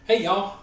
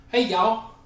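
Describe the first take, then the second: First: Higher Southern "Hey, y'all" in his own voice; own Southern greeting. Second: Bright, higher Southern "Hey, y'all"; Southern greeting. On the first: Shown as a demonstration. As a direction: greet them the Southern way, cheerful. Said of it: "so I'm Southern". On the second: Retold or imitated. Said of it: "if he were to say something about Southern".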